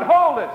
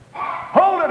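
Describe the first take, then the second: First: High, loud call to stop someone; sharp high call to halt a passerby. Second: Sharp high call to halt a passerby. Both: Acted. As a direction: stop him in his tracks from a distance. Woman calls out to stop you.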